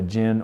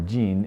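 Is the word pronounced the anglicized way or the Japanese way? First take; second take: anglicized; Japanese. First: The word is said with an anglicized pronunciation. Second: The word is said with a Japanese pronunciation.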